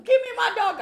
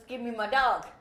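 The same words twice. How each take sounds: First: High, loud yell for the dog back; demanding shout. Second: Slightly raised, restrained demand; subdued demand. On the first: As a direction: shout it as the outraged owner. Acts out owner demanding dog back. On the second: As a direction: ask for it back without shouting. Owner repeats demand, more subdued. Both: Retold or imitated.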